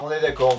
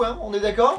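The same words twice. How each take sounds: First: "d'accord" settled with a falling, lower confirming tune; falling answer. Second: "d'accord" lifted in a rising, asking tune; rising question. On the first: Reviewer answering his own question to viewers, falling confirming tune. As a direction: answer "on est d'accord" with the pitch dropping at the end. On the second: Reviewer seeking viewers' agreement on the sugar, rising question tune. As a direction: ask "on est d'accord?" with the pitch going up at the end. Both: Real, not acted.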